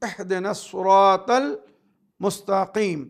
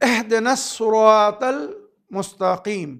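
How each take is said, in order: No difference in how they are said.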